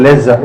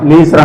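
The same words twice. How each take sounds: First: లెజర్ with a short "e" first vowel; modelled zh pronunciation. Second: లీజర్ with a long "ee" first vowel; common variant pronunciation. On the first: Teacher shows class the way to say it, short-e pronunciation. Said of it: "ఇలా". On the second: Teacher quotes what people say, long-ee pronunciation. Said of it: "అంటారు కదా". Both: Shown as a demonstration.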